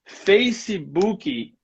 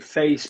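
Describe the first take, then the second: First: An extra vowel is added after the final consonant. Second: The word ends cleanly on the final consonant. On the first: The speaker calls it wrong. "You're adding two vowels at the end of words" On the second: The speaker calls it right. "so I'm not going to do that. So I'm going to say Facebook"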